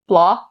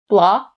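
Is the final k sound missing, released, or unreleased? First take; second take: missing; missing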